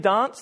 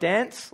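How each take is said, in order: First: It is said in a British royal-style accent. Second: It is said in an Australian accent. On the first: The speaker calls it right. "she would only dance" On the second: The speaker calls it wrong. "like an Australian would say"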